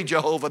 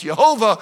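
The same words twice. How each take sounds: First: "Jehovah" said with an English J sound; wrong pronunciation. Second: "Jehovah" said with a Y sound, no J, as in Hebrew; correct pronunciation. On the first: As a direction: say "Jehovah" the usual English way, J as in jam. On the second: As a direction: say "Jehovah" as Yehovah, starting on a Y. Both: Shown as a demonstration. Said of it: "so it's really pronounced".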